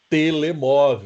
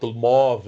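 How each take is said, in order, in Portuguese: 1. Cada sílaba é pronunciada inteira e igualmente. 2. As vogais átonas são reduzidas ou omitidas. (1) "o português não fala telemóvel" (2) "ele fala móvel"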